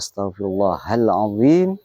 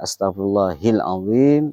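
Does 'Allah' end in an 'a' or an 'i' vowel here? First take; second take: a; i. First: The word Allah ends with an 'a' vowel. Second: The word Allah ends with an 'i' vowel. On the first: The speaker calls it right. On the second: The speaker calls it wrong.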